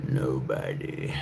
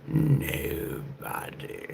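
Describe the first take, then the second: First: Dropped low and slow; low slow echo; deep slow. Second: High breathy whispered echo; high airy whisper, slow. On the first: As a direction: sink the word deep and drag it out. Echoing own line in lower voice. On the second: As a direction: float it up in a whisper. Echoing own line in high voice. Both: Acted.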